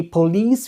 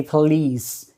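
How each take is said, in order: First: "police" said with a full O in the first syllable, poh-LEES; mispronounced police. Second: "police" with a reduced first syllable, puh-LEES; correct police. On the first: Trainer showing learners how not to say a common word, mispronounced police. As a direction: say "police" the wrong way, with a clear "po". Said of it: "We don't say police". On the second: Trainer showing learners how we say a common word, correct police. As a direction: say "police" the right way, first vowel short and weak. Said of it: "we say police". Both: Shown as a demonstration.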